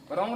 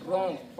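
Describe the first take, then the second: First: रॉन्ग with the silent W sounded in front; wrongly sounded W. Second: रॉन्ग starting straight on the r; no w sound before the r in रॉन्ग; silent W. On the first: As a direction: mispronounce wrong, a consonant before the r of रॉन्ग. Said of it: "रॉन्ग नहीं है ना". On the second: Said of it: "और डब्ल्यू क्या है?". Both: Shown as a demonstration.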